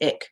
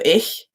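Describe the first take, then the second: First: It ends in a hard k sound. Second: It ends in a soft breathy ch sound. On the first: The speaker calls it wrong. "everyone says ick" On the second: The speaker calls it right. "the soft C H of ich"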